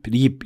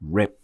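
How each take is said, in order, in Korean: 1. 한국식 ㄹ처럼 혀를 튕기는 소리로 시작해요. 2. 혀를 말아 올린 영어식 r로 시작해요. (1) "한국식으로 하게 되면" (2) "rip 이런 식으로"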